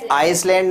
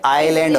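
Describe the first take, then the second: First: The s sound is pronounced in the word. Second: The s sound is silent in the word. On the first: The speaker calls it wrong. "आइसलैंड नहीं होगा बेटा" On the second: The speaker calls it right. "ये आइलैंड होगा। इसमें ये एस है, silent रहेगा"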